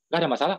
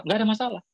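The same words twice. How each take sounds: First: "Nggak ada masalah" lifted into a question at the end; "Nggak ada masalah" asked with rising tune; questioning echo. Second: "Nggak ada masalah" pitched high, then falling to close; "Nggak ada masalah" with falling, final tune; reassuring denial. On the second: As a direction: answer "Nggak ada masalah" as a statement, higher then dropping. Applicant's answer to the echo. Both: Retold or imitated.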